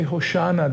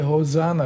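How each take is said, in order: First: The middle consonant is an sh sound. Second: The middle consonant is an s sound. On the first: This is the Hebrew form of the word. "They don't say Hoshana" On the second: This is the Greek form of the word. "they say Hosanna because there's no sh in Greek"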